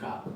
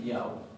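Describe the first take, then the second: First: The word starts with a harsh throat sound. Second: The word starts with a soft y sound. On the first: The speaker calls it wrong. "no vamos a decir ja" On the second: The speaker calls it right. "vamos a decir yao"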